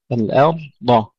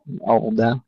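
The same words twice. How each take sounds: First: الأرض with light hamza and heavy dad; correct recitation. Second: الأرض with a light dad; imitating the mistake. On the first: Teacher giving the right reading. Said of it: "همزة مرققة والضاد مفخمة". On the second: Teacher showing the error. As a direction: say الأرض the wrong thin way. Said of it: "لا، الأرض". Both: Shown as a demonstration.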